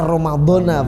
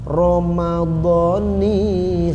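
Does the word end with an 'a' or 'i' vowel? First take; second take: a; i. First: The word ends with an a vowel. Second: The word ends with an i vowel. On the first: The speaker calls it wrong. "biasanya dibaca Ramadhana begitu ya" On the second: The speaker calls it right. "Cara niat yang benar itu begini"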